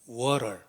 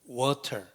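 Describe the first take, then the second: First: It is said with a native English accent. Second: It is said with a Korean-style English accent.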